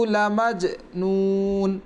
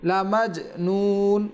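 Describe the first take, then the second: The two takes are said the same way.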